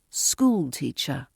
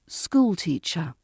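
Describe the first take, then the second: First: The main stress is on the first word. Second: The main stress is on the first word.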